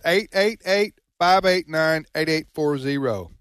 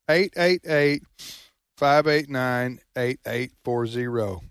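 First: The number is said at normal speed. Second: The number is said slowly and deliberately.

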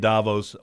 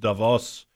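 First: The name is pronounced the American way. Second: The name is pronounced the European way. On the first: "most people in America say Davos" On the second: "Over there in Europe, it's Davos"

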